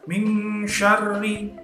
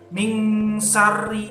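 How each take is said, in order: First: The second word begins with an sh sound. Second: The second word begins with a plain s sound. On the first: The speaker calls it right. "harus sya" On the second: The speaker calls it wrong. "Min syarri itu salah"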